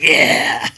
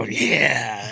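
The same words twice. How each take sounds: First: A loud, hearty yeah; a man gripping a hand hard and booming; firm loud yeah. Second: Said in the usual way. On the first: Retold or imitated. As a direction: bark it out with a crushing handshake. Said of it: "I shake it hard". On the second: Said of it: "I go".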